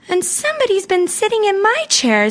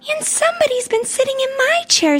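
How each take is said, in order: First: It is said in an ordinary voice. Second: It is said in a shrill squeaky voice.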